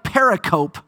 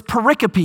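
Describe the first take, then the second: First: Pericope said as spelled, peri-cope rhyming with hope; spelled-out pronunciation. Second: Pericope said pe-RIC-o-pee, stress on RIC; correct pronunciation. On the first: Pastor showing the wrong, spelled-out pericope. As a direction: read pericope the way it looks, two plain parts peri and cope. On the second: Pastor teaching the congregation the right pericope. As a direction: give pericope four syllables with the weight on RIC. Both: Shown as a demonstration. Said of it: "put the emphasis on the right syllable".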